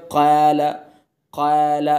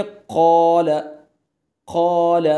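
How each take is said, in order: First: क़ाल with heavy qaf but a thin, light alif; the common mistake in क़ाल, alif made thin; demonstrating the wrong क़ाल. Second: क़ाल with the alif made full and heavy; the right way: क़ाल full-mouthed; demonstrating the correct क़ाल. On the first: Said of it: "तो ऐसे नहीं पढ़ना है". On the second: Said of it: "अलिफ को पुर करके पढ़ेंगे". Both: Shown as a demonstration.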